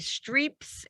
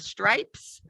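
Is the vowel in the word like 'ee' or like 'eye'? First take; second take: ee; eye. First: The vowel sounds like 'ee'. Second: The vowel sounds like 'eye'. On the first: The speaker calls it wrong. "All of my students say streeps" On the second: The speaker calls it right. "instead of stripes"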